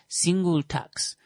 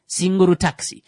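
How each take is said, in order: First: It is said in a plain accent. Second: It is said in a Japanese accent.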